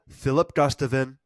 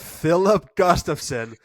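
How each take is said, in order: First: The name is pronounced sloppily and garbled. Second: The name is pronounced carefully and clearly. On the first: The speaker calls it wrong. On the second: The speaker calls it right.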